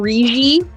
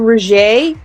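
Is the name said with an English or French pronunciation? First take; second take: English; French. First: The name is said with an English pronunciation. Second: The name is said with a French pronunciation. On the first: This is how Americans say the name. "you guys call him Rigi" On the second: This is how French speakers say the name. "but in French he would be Roger"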